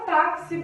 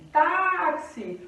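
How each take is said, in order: First: TÁXI with TÁ stressed; táxi, first syllable raised. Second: TÁXI with a long, high TÁ; táxi slowed, first syllable held; stress on first syllable. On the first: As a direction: say táxi as a word, strong on TÁ. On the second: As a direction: stretch the TÁ of táxi, then drop XI. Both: Shown as a demonstration. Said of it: "O tá é a sílaba forte".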